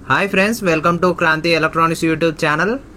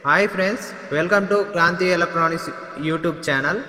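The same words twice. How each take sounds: First: Background noise is left unfiltered, with no echo. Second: The voice has an added echo effect. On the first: "ఈ microphone noise cancellation ఆఫ్లో ఉంది" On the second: "ఇప్పుడు echo మోడ్లో వింటున్నారు"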